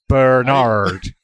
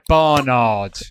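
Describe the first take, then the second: First: The first syllable sounds like 'burn'. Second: The first syllable sounds like 'bar'. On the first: The speaker calls it wrong. "You say Bernard" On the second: The speaker calls it right. "like Bar Bar Black Sheep. Bar. It's like Barnard"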